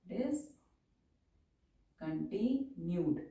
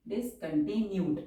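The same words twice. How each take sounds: First: Every syllable stretched, softer; very slow dictation. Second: Said in the usual way. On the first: Shown as a demonstration. Teacher dictating a long word to students, very slowly. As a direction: spell it out by voice for the pen.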